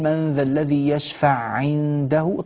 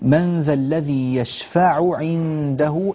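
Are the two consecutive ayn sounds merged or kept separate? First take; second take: merged; separate. First: The two ayn sounds run together into one. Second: Both ayn sounds are pronounced clearly and separately. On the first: The speaker calls it wrong. "ولا نقول" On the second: The speaker calls it right. "فنحتاج إلى أن نبين العين الأولى من العين الثانية"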